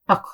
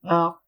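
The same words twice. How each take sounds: First: The final consonant has a quick bounce. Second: The final consonant stops without a bounce. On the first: The speaker calls it right. "Kalkala has to be quickly ak" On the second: The speaker calls it wrong. "I'm not going to say ak"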